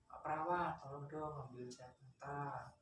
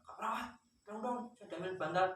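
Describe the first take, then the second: First: The request is said in a gentle, polite tone. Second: The request is said in a harsh, rough tone.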